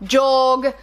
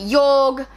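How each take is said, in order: First: The name is said like 'Jorg'. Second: The same.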